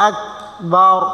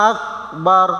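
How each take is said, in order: Both takes have the same delivery.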